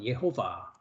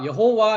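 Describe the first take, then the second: First: The name is said as ye-ho-va. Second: The name is said as yeo-ho-wa. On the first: This follows the Hebrew vowel marks. "저는 뭐라고 발음합니까? 예호바라고" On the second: This is the usual Korean translation's form. "여호와 했지만"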